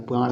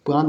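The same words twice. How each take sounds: First: प्राण ending in retroflex ṇ; correct final nasal. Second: प्राण ending in plain dental n; wrong final nasal. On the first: Teacher correcting the word, retroflex final nasal. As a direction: curl the tongue back ending प्राण. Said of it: "होता है". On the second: Teacher showing the mistake, plain final n. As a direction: end प्राण as praan, tongue on teeth. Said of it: "नहीं होता है". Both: Shown as a demonstration.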